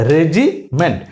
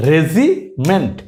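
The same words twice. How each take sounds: First: Said in the usual way. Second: regiment drawn out very slowly, syllable by syllable; slow demo. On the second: Shown as a demonstration. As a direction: stretch regiment out slowly for the learners. (খুব ধীরে টেনে টেনে regiment)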